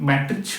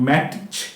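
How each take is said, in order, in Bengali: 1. ch-এর আগে t-এর উচ্চারণ করা হয়। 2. ch-এর আগে t-এর উচ্চারণ করা হয়।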